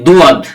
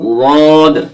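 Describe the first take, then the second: First: It begins with a plain D sound. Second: It begins with a sound made at the tongue's side. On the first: The speaker calls it wrong. "দুয়াদ হবে না, এটা ভুল" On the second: The speaker calls it right. "জীবের কিনারাটা মাড়ির দাঁতের গোড়ার সাথে লাগিয়ে দেবেন এবং উচ্চারণ করবেন"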